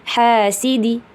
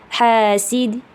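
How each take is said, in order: The two takes are said the same way.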